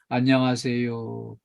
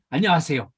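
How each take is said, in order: First: The greeting is quiet, flat and listless. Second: The greeting is lively, warm and engaged. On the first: The greeter is just going through the motions. The speaker calls it wrong. "목소리가 점점 작아져가지고 ... 성의 없이" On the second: The greeter is really addressing the customer. The speaker calls it right. "손님하고 딱 얼굴을 마주치고"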